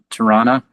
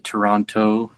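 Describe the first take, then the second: First: The syllables are squeezed into a shorter reduced form. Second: All three syllables are said clearly and fully. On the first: It is said the way locals say it. "which is normally how we say it" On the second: It is said the way outsiders say it. "I have to say it like uh, I'm not from here"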